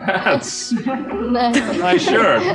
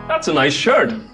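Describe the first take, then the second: First: It sounds mocking, like an insult. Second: It sounds like a sincere, friendly compliment.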